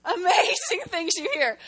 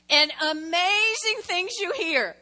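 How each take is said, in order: First: Laughing through the words. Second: Said in the usual way. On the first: Real, not acted. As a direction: break into a laugh mid-phrase.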